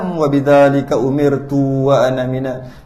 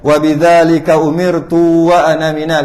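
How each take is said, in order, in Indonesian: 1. Vokal dalam ana dibaca pendek. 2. Vokal dalam ana dipanjangkan. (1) "dia bukan panjang" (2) "Bukan ... itu budak-budak"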